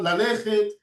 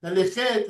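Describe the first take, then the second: First: "ללכת" stressed on the middle syllable, la-LE-chet; stress before the end. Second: "ללכת" stressed on the last syllable, la-le-CHET; French-style final stress. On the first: Teacher contrasting with French speakers, "ללכת" with earlier stress. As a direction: lean on the next-to-last syllable of "ללכת". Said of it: "not before the end". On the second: Teacher mimicking the French, "ללכת" with final stress. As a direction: push the stress to the end of "ללכת". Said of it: "put the accent at the end". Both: Shown as a demonstration.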